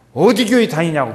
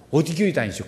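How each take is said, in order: First: Loud, insistent question about church; just ask it out loud and bluntly; emphatic asking. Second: Said in the usual way. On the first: Shown as a demonstration. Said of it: "그냥 그렇게 물어봐요". (크고 거침없이 묻는 말투) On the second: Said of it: "그렇게 물어봐".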